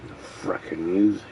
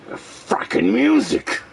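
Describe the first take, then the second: First: Low, soft, quick grumble; low mutter. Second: High, breathy whispered groan; exasperated whisper. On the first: Fed up with a song in his head, low quick mutter. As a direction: mumble it down under your breath. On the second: Fed up with a song in his head, high whisper. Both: Real, not acted.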